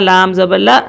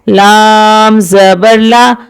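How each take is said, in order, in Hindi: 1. अक्षर एक झटके से काट दिया जाता है। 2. अक्षर बिना झटके के सहजता से बोला जाता है। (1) "इसी तरह झटका देना ... ये गलत तरीका है" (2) "मारूफ और मुतवस्सित तरीके से पढ़ेंगे"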